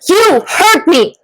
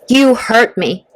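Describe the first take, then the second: First: It is said with energy and anger. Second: It is said plainly, without anger.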